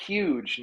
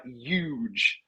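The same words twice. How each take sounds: First: "huge" with a sounded H, drawn out; correct pronunciation. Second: "huge" with the H dropped, like "yuge"; mocked mispronunciation. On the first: Retold or imitated. Seth correcting Donald on a word, precise, drawn-out "huge". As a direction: say "huge" slowly with its H clearly there. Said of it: "it's pronounced huge". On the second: Seth mocking how Donald says it, H-less "huge". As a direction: drop the H and say "huge" as "yooge". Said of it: "it's pronounced huge, not huge".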